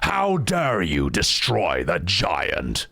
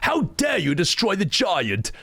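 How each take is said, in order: First: It is said in Golbez's voice. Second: It is said in an Edward-like voice.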